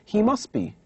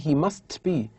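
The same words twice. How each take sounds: First: The t sound in must is dropped. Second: The t sound in must is pronounced. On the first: The speaker calls it right. "without giving an emphasis on the sound T" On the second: The speaker calls it wrong. "we don't say he must be"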